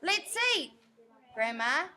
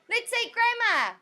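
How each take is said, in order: First: There is a pause between 'eat' and 'grandma'. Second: It runs straight through with no pause. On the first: Grandma is being told it's time to eat. "listen to the difference. ... So that comma" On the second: Grandma is the one being eaten. "That's that's saying that we're going to eat our grandma"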